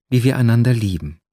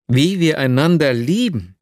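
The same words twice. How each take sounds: First: Said in the usual way. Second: « Wie wir einander lieben? » tossed back as a stunned question; exclaimed. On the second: Acted. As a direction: repeat her words in disbelief, pitch rising. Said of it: "rief ich aus".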